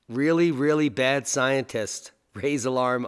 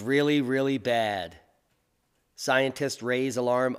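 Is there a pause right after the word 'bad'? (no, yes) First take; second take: no; yes. First: Bad runs straight into scientists without a break. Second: There is a break after the word bad. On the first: The scientists themselves are very bad. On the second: The situation is very bad, and scientists warn about it.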